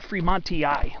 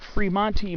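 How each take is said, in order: First: It uses an anglicized Latin pronunciation. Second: It uses a classical Latin pronunciation. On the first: "most people pronounce it" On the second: "a lot of names I do"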